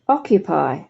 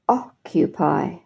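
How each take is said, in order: First: The word is said at a normal pace. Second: The word is said slowly and carefully. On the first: "let me read them properly" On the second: "So I'll say them slowly"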